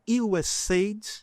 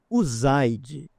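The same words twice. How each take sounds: First: The name is pronounced the English way. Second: The name is pronounced the Brazilian Portuguese way.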